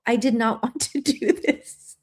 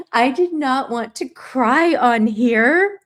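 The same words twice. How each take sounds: First: Laughing through tears. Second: Slow, louder, tearful admission; crying. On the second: Vlogger confessing to viewers, slow and crying. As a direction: push the words out through tears. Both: Real, not acted.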